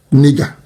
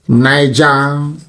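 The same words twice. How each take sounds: First: "nigger" said NIG-a, short i; "nigger" with a short i and hard g; mocking mispronunciation. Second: "Niger" said as NYE-ja; "Niger" with a long i, NYE-ja; Niger pronounced. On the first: Mocking Niger Delta's name with a short-i "nigger". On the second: "Niger" as NYE-ja, set against the slur. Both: Shown as a demonstration.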